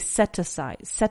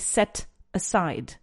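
First: The final T links smoothly into the next word. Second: The two words are said separately, not joined. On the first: The speaker calls it right. "I say set aside" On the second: The speaker calls it wrong. "Notice that I don't say set aside"

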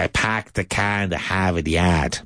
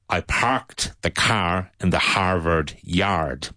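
First: It is said in a strong Boston accent. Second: It is said in a plain, non-Boston accent. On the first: "But in this Boston accent" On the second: "And so I would say"

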